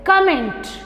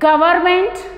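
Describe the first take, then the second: First: It is pronounced in an English style. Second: It is pronounced in a Hindi style. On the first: "English में pronunciation is गवर्नमेंट" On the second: "usually Hindi में बोलते हैं गवर्नमेंट"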